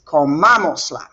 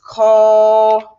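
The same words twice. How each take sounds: First: Comamosla with the accent on MA; stress on MA. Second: Louder, stretched-out comamosla with each syllable held. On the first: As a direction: say comamosla as one word, stressing co-MA-mos-la. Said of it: "I put an accent there". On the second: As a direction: sound out co-ma-mos-la as if writing it. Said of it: "it would look like this". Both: Shown as a demonstration.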